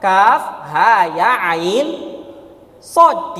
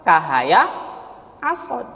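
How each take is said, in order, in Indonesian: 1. Setiap nama huruf diucapkan terpisah. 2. Huruf-huruf digabung menjadi suku kata yang mengalir. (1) "dibaca dengan" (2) "Tidak dibaca apa?"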